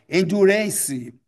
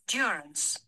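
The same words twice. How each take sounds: First: The final e is sounded as an extra syllable. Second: The final e is silent, giving three syllables. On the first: The speaker calls it wrong. "A tendência equivocada, natural" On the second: The speaker calls it right. "Três sílabas, ao invés de quatro"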